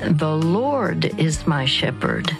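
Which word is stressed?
Lord. The stress is on the word Lord.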